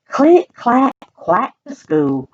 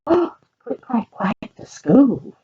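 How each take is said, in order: First: Said in the usual way. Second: Gasp, then a high Click and a slow, savoured clack, quack to school; gasping excitement. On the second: Shown as a demonstration. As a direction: relish the title like a treat. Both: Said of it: "repeats title with a gasp".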